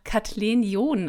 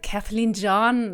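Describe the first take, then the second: First: The name is said with a standard German accent. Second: The name is said with an American accent.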